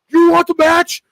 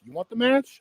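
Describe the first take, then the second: First: It is yelled like an excited maniac. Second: It is said calmly, like a normal person.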